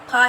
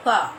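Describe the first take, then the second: First: "फा" as aspirated ph, lips meeting; wrong aspirated PH. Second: Touch lip to teeth for the f in "फा"; correct F sound. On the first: Teacher showing children the mistake, "फा" as lip-made ph. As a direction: say "फा" with both lips, like फल. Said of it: "फा ऐसे नहीं बोलना". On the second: Teacher modelling for children, "फा" as lip-to-teeth f. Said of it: "निचला होंठ हमारे ऊपरी दांतों को". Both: Shown as a demonstration.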